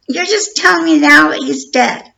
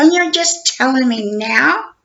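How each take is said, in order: First: Higher and louder, outraged; outraged outburst. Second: Slow, disbelieving indignation; indignant. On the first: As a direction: let the anger burst out on telling. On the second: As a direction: drag out the disbelief, rising. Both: Retold or imitated. Retold angry call with detective.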